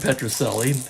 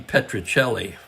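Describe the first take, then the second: First: The name is pronounced with American sounds. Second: The name is pronounced with Italian sounds. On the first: This is the familiar local form of the name. "how I grew up knowing him as" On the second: This is the name's original form. "would be the correct Italian pronunciation"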